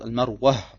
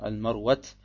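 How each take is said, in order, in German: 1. Der Name endet mit einem hörbaren, gehauchten h. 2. Der Name endet mit einem t-Laut. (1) "es heißt Al-Marwa, entweder mit Aha" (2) "nach manchen arabischen Dialekten sagt man Al-Marwat"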